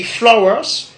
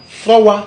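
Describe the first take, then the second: First: "flowers" closing on an s; English pronunciation. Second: "flower" ending on an open wa; Godié pronunciation. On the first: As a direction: say flo-wes for "flowers". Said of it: "En anglais, ça se dit". (« flowers » à l'anglaise, avec le s final) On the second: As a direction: say flo-wa for "flower". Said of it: "En godié, nous disons". (« flower » à la godié, prononcé flo-wa) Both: Shown as a demonstration.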